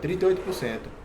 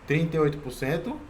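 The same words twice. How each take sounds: First: The voice falls at the end, like a statement. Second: The voice rises at the end, like a question. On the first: The speaker conveys confidence in the number. The speaker calls it right. "com o tom de voz é caindo" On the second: The speaker sounds unsure of the number. The speaker calls it wrong. "não assim"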